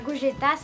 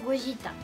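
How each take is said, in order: First: The name is pronounced the French way. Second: The name is pronounced the Japanese way. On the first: The speaker calls it wrong. "c'est pas Gogeta" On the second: The speaker calls it right. "c'est Gogeta"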